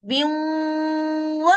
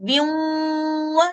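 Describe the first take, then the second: The two takes are said the same way.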